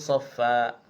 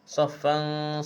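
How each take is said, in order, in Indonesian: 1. Kata ini berakhir dengan vokal yang dipanjangkan. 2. Kata ini berakhir dengan bunyi n. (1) "baca satu baris dengan dua harakat" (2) "yang asal baris dua"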